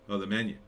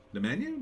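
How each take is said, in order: First: Said in the usual way. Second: High rising doubtful question; incredulous questioning echo; puzzled echo. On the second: Real, not acted. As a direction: repeat it like you can't believe it.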